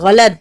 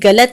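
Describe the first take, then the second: First: The word begins with a throaty gh sound. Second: The word begins with a plain hard g. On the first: The speaker calls it right. "गैन से गलत" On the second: The speaker calls it wrong. "ये गलत नहीं होता"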